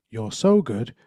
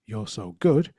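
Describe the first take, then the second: First: "so" punched louder, falling after it; stress on SO. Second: "good" stressed with a rising tune. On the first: Speaker demonstrating emphasis to the audience, louder stress on "so". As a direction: lean hard on "so" in "You're so good". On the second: Speaker demonstrating emphasis to the audience, rising stress on "good". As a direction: land on "good" and lift it. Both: Shown as a demonstration. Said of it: "put a different emphasis on each of the different words".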